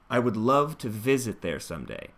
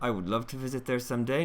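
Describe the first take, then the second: First: It is unhurried, with open, lengthened stressed syllables. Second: It is rushed, with little mouth opening. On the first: The speaker calls it right. "allow yourself the space and time for those stressed syllables" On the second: The speaker calls it wrong. "No jaw drop, no space between the teeth"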